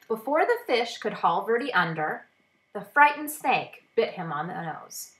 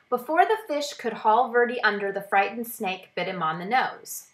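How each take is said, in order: First: There is a clear pause after 'under'. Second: It runs on with no pause after 'under'. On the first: The speaker calls it right. "when I put the comma back in" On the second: The speaker calls it wrong. "let me read it without the comma"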